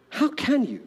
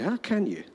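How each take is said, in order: First: Higher, insistent How can you with stress on How; emphatic repeat. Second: Said in the usual way. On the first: Acted. Pastor pressing the congregation, emphatic higher repeat. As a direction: press the question home.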